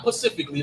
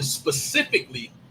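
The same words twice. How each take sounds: First: The word begins with a 'p' sound. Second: The word begins with an 'sp' sound. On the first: The speaker calls it wrong. "Not specifically like the oceans" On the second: The speaker calls it right. "I said it correctly"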